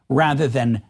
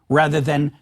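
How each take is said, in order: No difference in how they are said.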